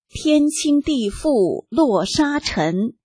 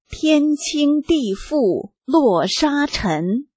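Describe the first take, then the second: First: The line is read at a normal pace. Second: The line is read at a slowed pace.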